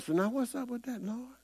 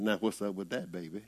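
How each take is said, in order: First: High, soft casual question to God; a hint of a pastor asking the Lord casually; Creflo asking God. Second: Lower, much softer mock reply; a light, low voice of God turning the question around; God answering back. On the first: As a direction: toss the question up lightly, pitched high. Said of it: "and he asked the Lord". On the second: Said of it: "Lord, come right back with the answers".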